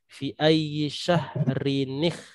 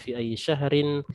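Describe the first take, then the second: First: The word ends with n plus a linking vowel. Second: The word ends on a plain n sound. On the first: "kalau kita mau sambung" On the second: "cara membaca yang terpisah"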